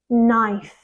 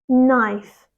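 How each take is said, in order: Both takes have the same delivery.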